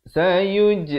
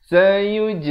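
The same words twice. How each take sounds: No difference in how they are said.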